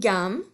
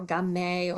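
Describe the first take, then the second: First: The final e is silent. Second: The final e is pronounced. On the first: The speaker calls it right. "those E's are all silent on the end" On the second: The speaker calls it wrong. "we don't say ... gamme"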